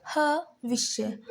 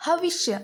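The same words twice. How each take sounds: First: हविष्य drawn out slowly, each syllable clear. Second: Said in the usual way. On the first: Shown as a demonstration. Teacher sounding out हविष्य slowly for the students. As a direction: spell हविष्य out slowly for the class. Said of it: "अब यहाँ हम देखते हैं".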